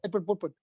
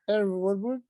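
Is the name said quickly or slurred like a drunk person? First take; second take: quick; slurred. First: The name is said rapidly in one rush. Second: The name is slurred as if drunk. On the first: "if you say it quickly" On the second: "if you say it when you're drunk"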